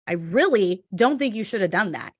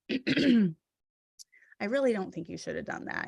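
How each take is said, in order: First: The tone is cold and harsh. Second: The tone is soft and gentle. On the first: It feels like an attack. "in the written word, that can come across like" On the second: It is friendly advice. "you could say something like"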